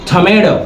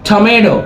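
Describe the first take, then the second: Both takes have the same delivery.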